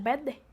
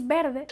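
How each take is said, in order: First: "verde" with the R swallowed into a doubled D; R not pronounced. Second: Said in the usual way. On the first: Shown as a demonstration. Showing how Havana says "verde", dropping the R. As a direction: say "verde" as "vedde", Havana style. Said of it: "no pronunciar la R". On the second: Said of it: "en vez de decir verde".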